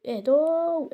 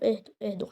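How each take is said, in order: First: Slow, high, stretched cry; pleading with attackers, high and drawn out; high drawn-out plea. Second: Said in the usual way. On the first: Real, not acted. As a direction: call out high, dragging the last vowel. Calling on attackers to calm down.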